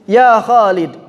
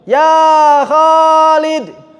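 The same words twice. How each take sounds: First: The call is said with normal, short vowel length. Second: The call is said with a drawn-out, lengthened vowel. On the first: A normal call to someone. "manggil orang segitu, nggak ditambahin" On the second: The person being called is not answering. "suka nambah-nambahin panjang"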